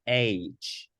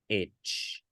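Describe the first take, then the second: First: The ending has a long 'ay' vowel, like 'age'. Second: The ending has a short 'i' vowel, like 'itch'. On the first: The speaker calls it wrong. "It is not pronounced age" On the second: The speaker calls it right. "It is pronounced itch"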